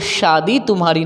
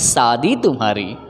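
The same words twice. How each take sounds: First: The word begins with a palatal sh sound. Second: The word begins with a dental s sound. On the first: The speaker calls it right. "मुबारक हो तुमको ये शादी तुम्हारी" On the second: The speaker calls it wrong. "ना कि शादी तुम्हारी"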